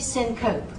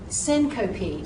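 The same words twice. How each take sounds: First: The word is said with two syllables. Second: The word is said with three syllables. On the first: The speaker calls it wrong. "I did not say syncope" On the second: The speaker calls it right. "So notice syncope"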